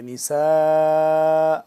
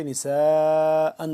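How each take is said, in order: First: نساء ending in a long open aa and a stop; pausal form. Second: نساء read on, the tanween kept as نساءً; connected reading. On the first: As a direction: stop on نساء, stretching the final aa. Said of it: "اس طرح سے پڑھیں گے". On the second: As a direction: flow نساء straight into the next word. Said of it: "ملا کے پڑھیں گے تو". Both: Shown as a demonstration.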